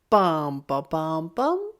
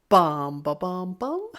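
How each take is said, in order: The two takes are said the same way.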